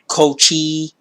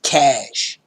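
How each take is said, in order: First: The word is not said like 'cash'. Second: The word is said like 'cash'. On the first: The speaker calls it wrong. "some people pronounce it cochi" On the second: The speaker calls it right. "it's actually pronounced cache ... literally worth cash"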